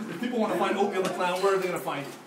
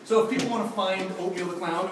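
First: Fast, still laughing through the question; laughing retake. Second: Said in the usual way. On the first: Real, not acted. Host retrying his question to the clown, still laughing. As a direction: rush the question out while giggling. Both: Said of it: "oh my gosh!".

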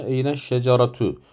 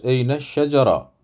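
First: Eyne şeceratu with the final -tu voiced in full; full ending. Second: Eyne şecara with the final t and vowel dropped; pausal ending. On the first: Teacher to students, full case ending pronounced. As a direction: read şeceratu to its last vowel. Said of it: "Nasıl okuyoruz ismin sonunu?". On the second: Teacher to students, pausal ending shown. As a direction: stop on şecara, no -tu. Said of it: "Sonunu okumaya da biliriz". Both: Shown as a demonstration.

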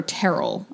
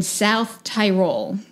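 First: "Tyrol" said as teh-rull; alternative pronunciation. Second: "Tyrol" said as tie-role; first pronunciation attempt. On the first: Storyteller correcting the place name, "Tyrol" as teh-rull. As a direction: say "Tyrol" with a short first vowel, like "terrel". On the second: Storyteller unsure of the place name, "Tyrol" as tie-role. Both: Shown as a demonstration. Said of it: "how it's pronounced".

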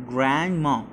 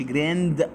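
First: "grandma" with the D swallowed; silent D. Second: "grandma" with a fully released D; D overpronounced. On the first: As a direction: say "grandma" without sounding out the D. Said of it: "ما نظهرش الدي". ("grandma" من غير إظهار الدي) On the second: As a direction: wrongly sound out the D in "grandma". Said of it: "ما نقولش". ("grandma" بإظهار الدي غلط) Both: Shown as a demonstration.

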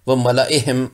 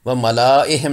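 First: व मलाइहिम without the alif; correct reading. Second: व मलाइहिम with the alif read; wrong reading. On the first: (व मलाइहिम सही, बिना अलिफ) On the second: (व मलाइहिम गलत, अलिफ पढ़कर) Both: Shown as a demonstration. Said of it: "गलत हो जाएगा".

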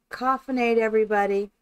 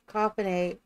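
First: Toast the viewers, coffinade punched; hearty greeting. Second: Said in the usual way. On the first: Real, not acted. Streamer toasts viewers, loud and cheery. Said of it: "coined greeting to viewers, repeated". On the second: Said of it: "repeats the greeting".

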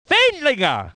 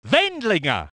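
First: Surname called with a peak, then a fall; exclaimed name. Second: Said in the usual way. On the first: Acted. Commentator naming Wendlinger, exclaimed call. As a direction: lift the name and let it fall. Same name more excited.

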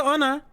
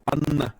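First: "Ana" with a single short n; "Ana" as a foreigner's name; foreign-style name. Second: "Anna" with a long, held double n; Turkish-style name. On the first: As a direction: say "Ana" lightly, without doubling the n. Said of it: "Türk olduğum için Anna demem gerekiyor". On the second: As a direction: linger on the n of "Anna". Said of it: "Anna demem gerekiyor". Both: Shown as a demonstration.

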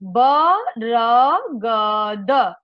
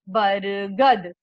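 First: Slow, every letter voiced apart as ब-र-ग-द with a vowel after each; syllable by syllable. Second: बरगद said quickly as one joined word, बर-गद, with a falling end. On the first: Teacher showing children each letter of the word, spelled out slowly. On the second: Teacher showing children the letters joined into one word. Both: Shown as a demonstration. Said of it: "इन चारों वर्णों को एक साथ जोड़ करके".

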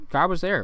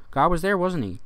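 First: "God was there" with a falling end; statement take. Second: "there" lifted into a rising end; questioning take. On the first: Friends answering about nine eleven, stating it. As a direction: state it, letting "there" drop. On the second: Friends answering about nine eleven, questioning. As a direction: offer it as a high tag question. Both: Acted. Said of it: "Say something like that".

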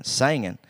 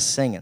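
First: "singing" said as "sangin'", first vowel as in "sang"; "singing" with an a vowel and dropped final g; hillbilly pronunciation. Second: Said in the usual way. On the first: Shown as a demonstration. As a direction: turn "singing" into a drawn "sangin'". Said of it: "Dad said something about singing". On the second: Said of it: "instead of singing".

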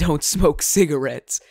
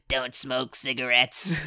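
First: Said in the usual way. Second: Slow, lower put-on voice; mock warning voice. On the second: Jokingly warning viewers off cigarettes, slow put-on low voice. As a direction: drag it out in a goofy low voice.

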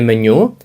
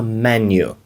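First: Меню with Ukrainian stress on the last syllable, me-NYU; wrong stress on menu. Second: Меню stressed on the first syllable, ME-nyu; English stress on menu. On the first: Teacher shows the wrong, Ukrainian-style stress on меню. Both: Shown as a demonstration. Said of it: "наголос трішки відрізняється".

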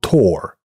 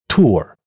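First: Tore with open o plus r; American ɔr in tore. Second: Tour gliding u to r-colored schwa; American ʊr in tour. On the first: (美音ɔr读tore) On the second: (美音ʊr读tour) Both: Shown as a demonstration. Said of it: "请听下列单词在美音中的区别".

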